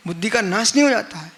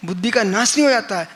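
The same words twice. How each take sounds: The two takes are said the same way.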